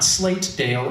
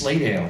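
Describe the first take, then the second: First: The middle t sound is clearly pronounced. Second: The middle t sound is dropped. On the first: This is the outsider's pronunciation. The speaker calls it wrong. "Not Slatedale" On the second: This is how locals say it. The speaker calls it right. "the way people pronounce it locally"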